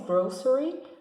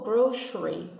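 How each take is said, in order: First: The middle consonant is an s sound. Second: The middle consonant is an sh sound. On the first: "com um sonzinho de S" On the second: "com um som de sh"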